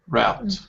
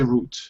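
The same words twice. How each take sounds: First: It is said with an American pronunciation. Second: It is said with a British pronunciation. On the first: "in American route" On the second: "British and Australian we say route"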